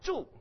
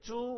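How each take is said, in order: First: The pitch falls sharply throughout. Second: The pitch stays level throughout. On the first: It means to live. "If you go straight down" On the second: It means pig. "with a straight sound"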